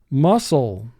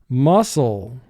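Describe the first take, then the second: The two takes are said the same way.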